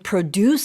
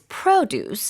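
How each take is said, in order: First: The stress is on the second syllable. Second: The stress is on the first syllable. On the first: It means to make something. "it's used as a verb" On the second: It names farm products. "here it's produce and it's used as a noun"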